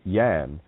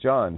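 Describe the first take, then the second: First: The name begins with a Y sound. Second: The name begins with a J sound.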